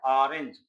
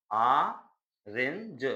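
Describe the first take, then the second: First: Said in the usual way. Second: ऑरेंज stretched very slowly, split after the opening vowel; teacher slowly sounding out ऑरेंज in pieces; syllable by syllable. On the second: Shown as a demonstration. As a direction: draw out the first sound of ऑरेंज, then the rest. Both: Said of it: "इसका उच्चारण आ से शुरू".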